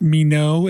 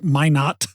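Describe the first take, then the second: First: The first syllable sounds like 'me'. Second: The first syllable sounds like 'my'. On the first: The speaker calls it wrong. "It is not pronounced me no" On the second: The speaker calls it right. "It is my not"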